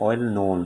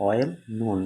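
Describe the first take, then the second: First: Said in the usual way. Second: "well known" slowly, as two separate beats; split into syllables. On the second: Shown as a demonstration. Teacher counting syllables for students, "well known" slowly in two beats. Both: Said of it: "দুই syllable".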